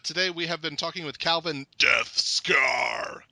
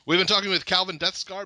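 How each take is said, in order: First: The name is said in a dramatic put-on voice. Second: The name is said in a normal voice.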